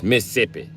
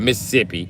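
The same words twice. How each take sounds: First: "Mississippi" clipped to three syllables, Miss-sip-pi; "Mississippi" squeezed down to Miss-sippi; local pronunciation. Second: "Mississippi" with every syllable sounded, Miss-iss-ip-pi; full four-syllable "Mississippi"; wrong pronunciation. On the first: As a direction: swallow the middle of "Mississippi". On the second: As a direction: spell out all four beats of "Mississippi". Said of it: "So it's not". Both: Shown as a demonstration.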